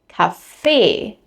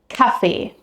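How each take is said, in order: First: The stress is on the second syllable. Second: The stress is on the first syllable. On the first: It means a coffee shop. "Here the stress is on the second syllable" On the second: It means the drink, coffee. "with the stress on the first syllable"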